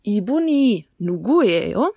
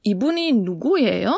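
First: "Ibuni nuguyeyo?" spaced out, rising at the end; slow teaching demo; very slow Korean question. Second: "ibuni nuguyeyo?" at a slow teaching pace; asking Lisa. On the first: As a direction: drill "Ibuni nuguyeyo?" slowly for learners. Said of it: "Dann können wir aber auch fragen". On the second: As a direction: put "ibuni nuguyeyo?" to Lisa as a real question. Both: Shown as a demonstration.

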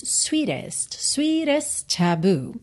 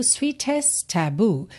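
First: American sweetest with a flapped T, swee-dest. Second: British sweetest taboo, crisp T, slow; British clear T. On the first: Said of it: "pronúncia mais americana". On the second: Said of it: "No inglês britânico". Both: Shown as a demonstration.

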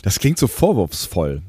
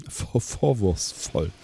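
First: Said in the usual way. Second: Langsam und leise gelallt; lallend. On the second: Pretend. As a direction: wie betrunken lallen. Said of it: "dass ich lalle". (gespielt betrunken lallen)

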